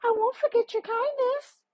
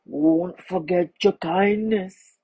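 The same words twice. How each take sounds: First: Very high, quick bee voice; tiny voice. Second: Rasping crocodile. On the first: Bee thanking the man as it flies away, tiny high quick voice. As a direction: squeak it quickly like a tiny insect. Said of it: "A tiny voice said". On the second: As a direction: rasp it out, drawing each word long. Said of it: "it rasped". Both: A narrator's reading.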